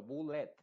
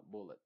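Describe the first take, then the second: First: Bullet with a wide open E, bul-LET; the wrong version of bullet, mouth wide; bullet, over-open E. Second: Bullet with a dull IH ending, BUL-it; reduced bullet. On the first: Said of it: "muy abierta la boca". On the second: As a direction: say bullet with a muted final vowel. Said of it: "no estoy diciendo bullet ... sino bullet". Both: Shown as a demonstration.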